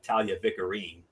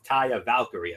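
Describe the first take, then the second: First: The name sounds like Talia Vicarine. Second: The name sounds like Taya Valkyrie. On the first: The speaker calls it wrong. "or as M F likes to call her" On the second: The speaker calls it right. "if you want to get the pronunciation right"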